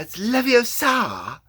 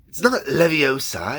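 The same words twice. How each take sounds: First: Put-on much higher, slow, far-off girl's voice; Hermione impression. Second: Put-on high girlish know-it-all voice; Hermione impression. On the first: Showing viewers his Hermione warm-up, high and slow. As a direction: stretch it out primly, like Hermione. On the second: Demoing Hermione's key phrase to viewers, primly. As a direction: correct someone primly, like Hermione. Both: Shown as a demonstration. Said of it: "for Hermione, for example".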